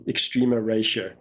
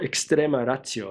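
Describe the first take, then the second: First: The name is said with English pronunciation. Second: The name is said with Italian pronunciation.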